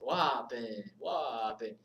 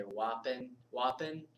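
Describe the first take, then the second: First: "Wapin" drawn out with a falling Jamaican lilt; amateur Jamaican-accented "Wapin"; attempted Jamaican accent. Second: Said in the usual way. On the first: Shown as a demonstration. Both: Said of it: "can't say it in a Jamaican accent".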